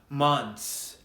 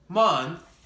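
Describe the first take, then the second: First: It ends with an s sound. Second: It ends with a th sound. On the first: The speaker calls it wrong. "you will make the S or Z sound. I often hear this mistake" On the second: The speaker calls it right. "bite your tongue and then blow air through it"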